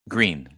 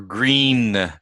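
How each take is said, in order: First: The word is said as one syllable. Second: The word is said as two syllables. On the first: The speaker calls it right. "which really should sound like green" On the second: The speaker calls it wrong. "Or green"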